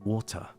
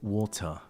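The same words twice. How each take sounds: First: The final r sound is dropped. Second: The final r sound is dropped.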